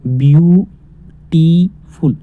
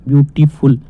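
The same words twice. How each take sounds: First: beautiful very slowly split into three parts, each stretched; slow teacher's breakdown of beautiful; broken into syllables. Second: Said in the usual way. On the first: Shown as a demonstration. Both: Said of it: "तीन type में तोड़ के पढ़ा हमने".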